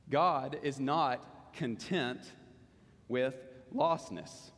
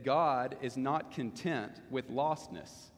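First: Very slow, pausing before "with lostness"; slow emphatic repeat. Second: Said in the usual way. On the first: Real, not acted. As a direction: drive the point home, phrase by phrase. Main point repeated for emphasis.

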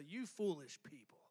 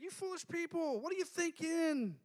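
First: Lower, softer, cold scolding; harsh rebuke. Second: Higher, light friendly chiding; fond exasperation. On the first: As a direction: say it as a cutting put-down. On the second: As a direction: tease them like old friends. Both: Retold or imitated. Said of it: "I don't think he said it that way".

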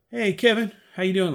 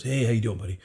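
First: High, bright-eyed hello to a star; eager greeting. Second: Said in the usual way. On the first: Retold or imitated. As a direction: call out hopefully to Kevin. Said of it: "and I said". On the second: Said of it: "and he goes".

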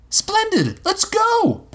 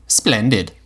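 First: Very high, eager exclamation; boy charging off to find a pirate; excited boy. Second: Robot Robbie. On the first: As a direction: leap into it like a thrilled kid. Will rushes off eagerly. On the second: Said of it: "Robbie said". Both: A narrator's reading.

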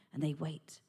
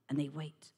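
No difference in how they are said.

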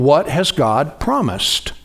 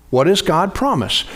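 First: Slowed, weighted question; slow emphatic question. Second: Said in the usual way. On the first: Shown as a demonstration. Preacher posing the key question to the congregation, slow. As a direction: lean into each word of What has God promised. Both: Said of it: "always ask yourself the question".

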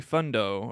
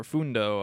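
First: Fundo said with a short "uh", FUN-doh; first pronunciation guess. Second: Fundo said with an "oo", FOON-doh; second pronunciation guess. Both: Shown as a demonstration. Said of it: "I don't know how you pronounce it".

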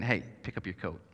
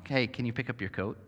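First: Lower, softer, firm order; mean it as a plain order, not a question; blunt command. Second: Put-on soft, polite ask to a child; a gentle question to your kid about the coat; polite request. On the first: Retold or imitated. Parent ordering a child to pick up the coat. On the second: Parent asking a child politely. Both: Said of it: "Which is really polite saying".

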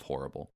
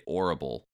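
First: Said in the usual way. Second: "orrible" with no H; dropped H. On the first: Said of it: "instead of". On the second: Shown as a demonstration. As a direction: say "orrible", starting straight on the vowel. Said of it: "there's an apostrophe and then".

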